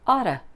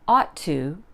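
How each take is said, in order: First: The words run together into one reduced form. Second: Both words are said fully and separately.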